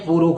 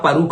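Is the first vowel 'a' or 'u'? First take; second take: u; a. First: The first syllable has a 'u' vowel. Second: The first syllable has an 'a' vowel. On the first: The speaker calls it wrong. "यहां पर बोलते हैं पुरुख है" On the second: The speaker calls it right. "लेकिन यहां परुख है"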